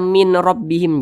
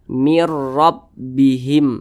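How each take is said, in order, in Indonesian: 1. Bunyi n tetap dipertahankan sebelum r. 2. Bunyi n melebur ke dalam r. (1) "Jangan dibaca min rabbihim" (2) "langsung dimasukkan ke huruf ra"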